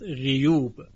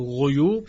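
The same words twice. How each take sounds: First: The first vowel is a front 'i' sound. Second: The first vowel is a rounded 'u' sound. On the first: This is a dialect-based variant reading. "شعبه در اینجا هم به کسر غین خونده" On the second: This is the common reading of the word. "یعنی غیوب شده است"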